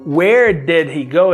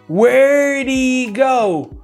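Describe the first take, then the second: First: 'Did' is said in full as its own word. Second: 'Did' is contracted and joined to 'where'.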